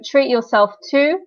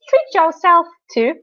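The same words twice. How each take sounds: First: It is said in a plain, natural voice. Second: It is said in a put-on, familiar character voice.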